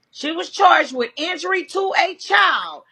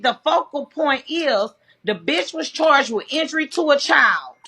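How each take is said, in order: First: Indignant stress on "charged"; emphatic repeat. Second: Said in the usual way. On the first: Real, not acted. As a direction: hammer home "charged" the second time.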